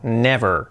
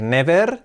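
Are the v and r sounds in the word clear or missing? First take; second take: clear; missing. First: The v and r sounds are clearly pronounced. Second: The v and r sounds are not clearly pronounced. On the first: The speaker calls it right. "Con la V y la R" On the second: The speaker calls it wrong. "No digáis never"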